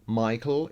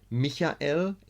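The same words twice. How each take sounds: First: The name is pronounced the English way. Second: The name is pronounced the German way. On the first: "in English" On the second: "in German"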